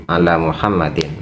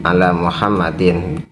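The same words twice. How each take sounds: Both takes have the same delivery.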